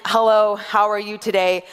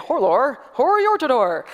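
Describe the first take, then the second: First: Said in the usual way. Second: "Hello, how are you today" with every vowel turned to OR; or language. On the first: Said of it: "So if I was to say". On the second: Shown as a demonstration. Showing the congregation her silly or language, "Hello, how are you today" in OR sounds. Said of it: "replacing things with the, with or".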